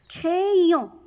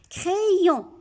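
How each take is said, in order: First: The first syllable sounds like 'cré'. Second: The first syllable sounds like 'cré'.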